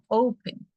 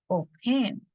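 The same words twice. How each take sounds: First: The stress is on the first syllable. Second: The stress is on the second syllable. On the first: The speaker calls it right. "el acento que recaería en la palabra O" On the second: The speaker calls it wrong. "no decimos open"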